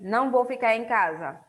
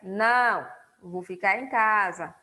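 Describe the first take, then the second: First: It runs on with no pause after 'não'. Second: There is a short pause after 'não'. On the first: I will not stay at home. The speaker calls it wrong. "se não tivesse a vírgula, ficaria assim" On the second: No, I will stay at home. The speaker calls it right. "como inseriu a vírgula"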